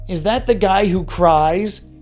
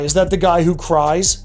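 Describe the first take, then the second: First: It is said with scorn and contempt. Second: It is said in a plain, neutral tone.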